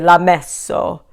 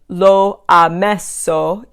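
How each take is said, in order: First: The vowel is dropped and l joins ha. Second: The vowel of lo is pronounced separately. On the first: The speaker calls it right. "you would say" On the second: The speaker calls it wrong. "instead of saying"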